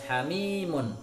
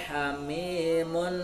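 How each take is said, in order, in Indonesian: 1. N terakhir dibaca tegas, tanpa dengung. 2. N terakhir dipanjangkan dengan dengung sengau. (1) "Bacaannya harus jelas" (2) "Tidak boleh dengung"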